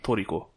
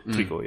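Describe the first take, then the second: First: The name is said with three syllables. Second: The name is said with two syllables. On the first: This follows the Japanese katakana reading. "if you're going by katakana, it'd be Toriko" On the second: This is the usual English form of the name. "So Trico"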